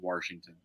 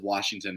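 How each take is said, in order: First: It is said with an R sound inserted. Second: It is said without an R sound. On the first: This is how a regional accent says it. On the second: This is the usual pronunciation.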